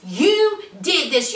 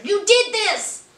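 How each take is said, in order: First: "You" diberi tekanan, kalimat pelan; stress on you. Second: "did" ditekan keras dan lambat; stress on did. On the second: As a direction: tekankan kata "did". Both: Real, not acted.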